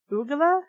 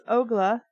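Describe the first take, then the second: First: Ogla said oo-gla with a questioning rise; puzzled Ogla. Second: Said in the usual way. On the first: Shown as a demonstration. Reader doubting the odd name, questioning rise. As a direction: try Ogla again, unsure, lifting at the end. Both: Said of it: "I think it's Ogla".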